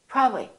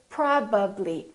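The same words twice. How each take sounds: First: The lip consonants are reduced and blurred. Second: The lip consonants are fully articulated. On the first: The speaker calls it wrong. "Don't say probably, probably" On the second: The speaker calls it right. "Say probably. Fully move your lips"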